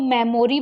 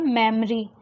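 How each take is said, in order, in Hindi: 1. बीच का स्वर एक पूरा स्वर है। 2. बीच का स्वर हल्का श्वा है। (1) "ये गलत प्रोनाउंसिएशन है" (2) "यहाँ पे होगा मेमोरी"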